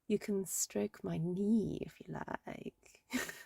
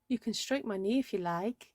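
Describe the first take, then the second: First: It is said in a creepy, suggestive way. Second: It is said in a plain, ordinary way.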